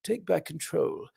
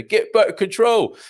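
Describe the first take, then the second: First: Slow, soft, lightly voiced posh politician; Rees-Mogg impression. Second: Slow, loud, high mock slogan chant; put-on slogan voice. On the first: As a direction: murmur the slogan like a languid MP. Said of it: "might be him". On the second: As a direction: boom it out like a campaign slogan. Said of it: "I don't know why I did that in that voice".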